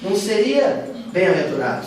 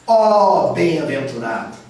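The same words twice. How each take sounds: First: Said in the usual way. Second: "ó bem-aventurado" drawn out, slow and louder; exclaiming. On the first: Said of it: "o mais certinho mesmo". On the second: Shown as a demonstration. Teacher demonstrates the exclamatory translation, slow and loud.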